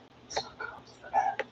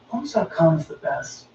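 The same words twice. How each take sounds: First: It is whispered. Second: It is said in a normal voice.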